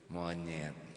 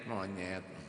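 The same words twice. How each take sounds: Both takes have the same delivery.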